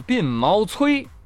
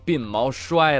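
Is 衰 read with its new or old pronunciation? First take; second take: old; new. First: 衰 is read with its older pronunciation. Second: 衰 is read with its newer pronunciation. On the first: This is the reading no longer used. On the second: This is the reading used now.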